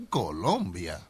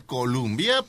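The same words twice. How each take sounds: First: "Colombia" with an o in the middle; corrected pronunciation. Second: "Columbia" read as written, with a u; spelled-out pronunciation. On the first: Co-host teaches the pronunciation, "Colombia" with an o. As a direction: say "Colombia" slowly, with an o. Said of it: "pero se pronuncia Colombia". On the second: Co-host explains the spelling, "Columbia" read as written. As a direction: say "Columbia" with an oo in the middle. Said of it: "se escribe Columbia". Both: Shown as a demonstration.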